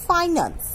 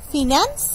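First: "finance" as FAI-nuns, first syllable like "fie"; corrected pronunciation. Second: "Finance" with a short first vowel, fi-NANS, rising; mispronounced. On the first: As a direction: say "finance" with a long i and a falling end. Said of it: "The right is". ("finance" শুদ্ধ করে, ফাই-নান্স, নামা সুরে) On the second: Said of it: "Wrong pronunciation". ("Finance" ভুল উচ্চারণে, ফিন্যান্স, প্রশ্নের সুরে) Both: Shown as a demonstration.

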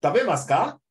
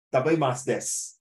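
First: Dabemasu ka with a higher, rising question on ka; question intonation. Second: Dabemasu desu at usual pitch, closing on desu; a statement tune on "Dabemasu desu"; full-stop intonation. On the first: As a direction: lift ka at the end as a clear question. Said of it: "or question mark". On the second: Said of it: "full stop". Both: Shown as a demonstration.

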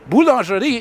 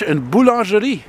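First: Said in the usual way. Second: "Une boulangerie" dicho a la francesa, con la r francesa; French pronunciation. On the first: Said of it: "Boulangerie is French for bakery". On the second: Shown as a demonstration. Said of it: "you know what a bakery is in French".

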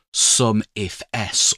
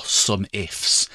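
First: "sum if S" with the final S as a letter, "ess"; letter S said separately. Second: "sum ifs" with the S run onto "if"; plural-sounding "ifs" in "sum ifs", no separate letter S; read as words. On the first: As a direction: say "sum if S" in three parts, ending on the letter name. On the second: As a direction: say "sum ifs" as two words, rhyming the end with "whiffs". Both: Shown as a demonstration. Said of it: "depending on how you want to say it".

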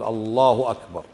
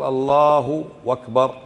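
First: "الله أكبر" with a clean glottal start on "أكبر"; "أكبر" begun on a crisp hamza; correct takbir. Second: Slow "الله أكبر" said as "Allahu wakbar"; "أكبر" mispronounced as "wakbar"; wrong waw inserted. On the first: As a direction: say "Allahu akbar" evenly, no w between the words. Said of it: "قل". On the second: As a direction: stretch "الله" and glide a w into "أكبر". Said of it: "لا تقل". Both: Shown as a demonstration.

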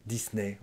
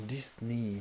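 First: Disney as "dees-neh"; French pronunciation. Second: Disney with a final "ee"; English pronunciation. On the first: Teacher shows learners the French brand name, French pronunciation. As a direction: end Disney on an open "eh". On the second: Teacher echoes the English brand name, English pronunciation. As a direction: say Disney ending in "nee". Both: Shown as a demonstration. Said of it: "On dit Disney".

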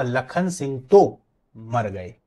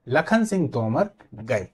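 First: Slow, pause between तो and मर; word split in two. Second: Slow, Tomar joined as one word before गए; name said as one. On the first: Teacher shows the changed meaning, तो split from मर. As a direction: stretch तो, break, then मर गए. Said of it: "तो और मर को अलग कर दिया जाए". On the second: Teacher repeats it for students, slowly, Tomar unbroken. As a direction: keep Tomar whole, then let गए follow. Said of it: "फिर से सुनिए". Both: Shown as a demonstration.

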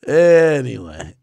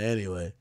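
First: Slow, loud, stretched "Anyway"; drawn-out. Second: Said in the usual way. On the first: Real, not acted. Streamer moving on after the joke, drawn-out. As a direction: drag out the word ANYWAY.

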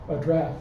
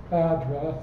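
First: AdDRESS, stressed on the second syllable DRESS. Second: ADdress, stressed on the first syllable AD. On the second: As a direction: say address as the noun, AD-dress. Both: Shown as a demonstration. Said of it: "So again".

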